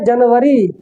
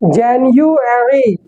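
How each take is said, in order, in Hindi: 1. शब्द के बीच में 'v' आवाज़ आती है। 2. शब्द के बीच में 'yu' आवाज़ आती है।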